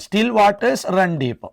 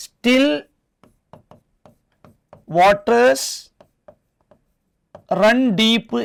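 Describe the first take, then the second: First: Said in the usual way. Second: Very slow, long pauses between the words; word-by-word dictation. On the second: Shown as a demonstration. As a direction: dictate it one word at a time. (ഓരോ വാക്കായി നിർത്തി നിർത്തി)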